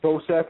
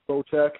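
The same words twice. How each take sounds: First: The c in the name sounds like s. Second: The c in the name sounds like ch. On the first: The speaker calls it wrong. "I actually thought this dude's name was pronounced Bocek. That's how I was pronouncing it" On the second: The speaker calls it right. "I guess it's pronounced Bocek"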